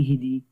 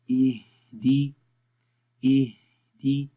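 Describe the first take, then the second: First: Quick इहदी with the ह clipped, no breath; wrong pronunciation. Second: Slow इहदी, the ह breathy with air flowing; recitation demo. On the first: Teacher shows the incorrect rushed इहदी. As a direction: say इहदी fast, cutting off the air on ह. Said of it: "अब इसको ऐसे नहीं पढ़ेंगे". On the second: Teacher shows students breathy ह in इहदी. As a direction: stretch इहदी letting breath run through the ह. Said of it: "हा में देखें आवाज़ की सांस कैसे जारी हो रहा है". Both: Shown as a demonstration.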